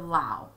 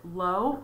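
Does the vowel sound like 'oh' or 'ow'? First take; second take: ow; oh. First: The vowel sounds like 'ow', as in 'cow'. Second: The vowel sounds like 'oh', as in 'go'. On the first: "OW as ow would be ow" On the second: "OW as O would be O"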